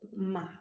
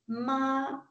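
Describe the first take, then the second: First: It is said with the third tone. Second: It is said with a level first tone. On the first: It means horse. "le troisième ton" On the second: It means mother. "si le ton est stable, le premier ton"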